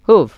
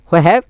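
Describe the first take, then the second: First: It is squeezed into one contracted syllable. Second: It is said as two full words. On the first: "হুয়েভ অথবা হুভ" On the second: "হু হ্যাভ এর হইবেন"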